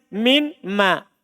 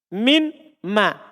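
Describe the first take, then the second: First: The n is heard before a separate m. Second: The same.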